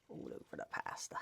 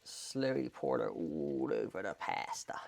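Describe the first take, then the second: First: Hushed, whispered echo; playful whisper. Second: Sung, very low, drawn-out, hushed delivery; sung, draw it out slowly, deep and soft; slow low croon. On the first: Vlogger echoing his pouring line to camera, playful whisper. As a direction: whisper it softly, barely voiced. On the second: Vlogger narrating his pouring to camera, slow low croon. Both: Pretend.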